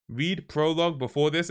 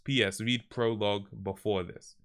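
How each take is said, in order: First: "Read prologue before this?" pitched up as a query; puzzled question. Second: Said in the usual way. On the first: Real, not acted. Questions the note just read.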